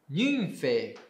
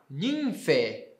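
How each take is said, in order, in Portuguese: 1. A palavra termina com som de 'e'. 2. A palavra termina com som de 'e'.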